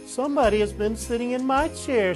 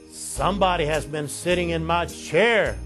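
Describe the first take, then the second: First: It is said in a middle-sized voice. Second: It is said in a great big voice.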